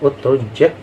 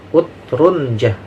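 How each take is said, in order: First: The j sound is doubled with no n sound. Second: An n sound comes before a single j. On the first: "jimnya di tasdid" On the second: "ada nunnya"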